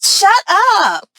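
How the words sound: It sounds friendly and disbelieving.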